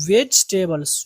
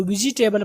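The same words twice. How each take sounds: First: "ویجیٹیبلز" as vej-tay-bals; "ویجیٹیبلز" in three syllables, vej-tay-bals; correct vegetables. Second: "ویجیٹیبل" as vi-ji-tay-bal, every syllable said; "ویجیٹیبل" with an extra ji syllable; wrong vegetable. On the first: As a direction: say "ویجیٹیبلز" with the middle vowel dropped. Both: Shown as a demonstration. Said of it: "ویجیٹیبلز نہیں ہوگا".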